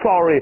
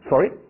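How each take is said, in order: First: The voice falls at the end. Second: The voice rises at the end. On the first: The speaker is apologizing. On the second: The speaker asks the other person to repeat.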